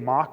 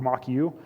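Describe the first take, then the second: First: The name is said as one syllable. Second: The name is said as two syllables. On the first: "you can either say it mock" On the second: "or mock you"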